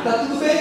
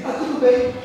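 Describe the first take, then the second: First: "Tá tudo bem?" asked with a rising end on "bem"; questioning tune. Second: "Tá tudo bem." said with a falling end on "bem"; flat statement. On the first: Son checking on his father, asking with a rising tune. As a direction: lift "bem" up as a real question. Son asks, then repeats. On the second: Son repeating it to his father as a falling statement. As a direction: drop "bem" down, stating it as settled. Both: Retold or imitated.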